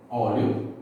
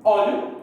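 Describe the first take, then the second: First: Said in the usual way. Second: Óleo said higher and louder, set off on its own; Óleo hit hard like a teacher's answer; emphatic demo word. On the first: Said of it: "mais fácil de identificar". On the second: Shown as a demonstration. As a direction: punch out Óleo as the part you split off. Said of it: "eu dividiria aqui".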